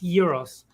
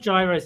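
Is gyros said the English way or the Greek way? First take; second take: Greek; English. First: The word is said with a Greek pronunciation. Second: The word is said with an English pronunciation. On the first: The speaker calls it right. "that's the actual way to pronounce it in Greek" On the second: The speaker calls it wrong. "it's not gyros"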